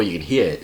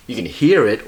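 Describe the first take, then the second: First: "hear" in a Boston accent, r dropped; Boston r-less "hear". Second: "hear" with its r fully pronounced; r sounded in "hear". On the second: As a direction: say "hear" with a clear final r. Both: Shown as a demonstration. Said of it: "the word here".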